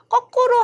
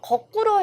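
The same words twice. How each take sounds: First: The first consonant is tense. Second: The first consonant is plain. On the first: The speaker calls it wrong. "그래서 우리가 거꾸로 하면 안 돼요" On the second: The speaker calls it right. "거꾸로 해야 합니다"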